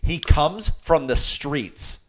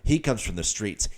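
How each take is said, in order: First: It is said louder. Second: It is said at normal loudness.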